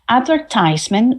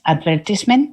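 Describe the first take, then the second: First: It is said with an American pronunciation. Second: It is said with a British pronunciation.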